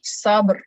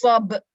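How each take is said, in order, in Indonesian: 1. Kata ini berakhir dengan bunyi r samar. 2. Kata ini berakhir tanpa bunyi r. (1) "Ba baru ada bunyi ri sikit" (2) "Dia jangan baca uh"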